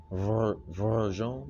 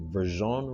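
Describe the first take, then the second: First: Put-on Verzon drawn out slowly in a light Russian accent; a hint of a Russian accent, Verzon stretched out. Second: Said in the usual way. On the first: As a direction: imitate the Russian lady saying Verzon, slow and careful. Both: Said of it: "I'm trying to do the little, use a little accent again".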